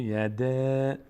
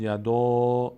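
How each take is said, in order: First: "یده" with a long, light front ae; thin reading. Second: "یدا" with a heavy, rounded long aa, louder; full reading. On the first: Teacher correcting the full reading, thin elongated vowel. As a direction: draw "یده" out thin, without filling the vowel. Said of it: "اما پر نمیشه". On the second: Teacher showing how a full reading would sound, heavy vowel. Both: Shown as a demonstration.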